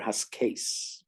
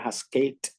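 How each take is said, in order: First: The word ends with an s sound. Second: The word ends with a t sound. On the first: "We would pronounce it either Haskate or Haskase" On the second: "We would pronounce it either Haskate or Haskase"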